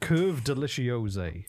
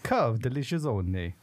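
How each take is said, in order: First: It is said in a plain, unaccented reading voice. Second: It is said in an exaggerated Italian accent.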